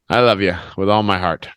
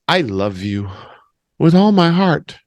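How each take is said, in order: First: It sounds offhand and dismissive. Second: It sounds warm and sincere. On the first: The speaker wants the other person to go away. "one is like, okay, I love you. Now get out of my face" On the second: The love is genuinely meant. "One is honest"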